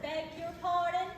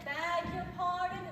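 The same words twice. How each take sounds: First: It is said in a plain, ordinary accent. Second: It is said in a posh, upper-class accent.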